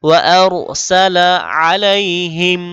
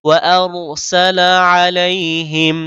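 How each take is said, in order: No difference in how they are said.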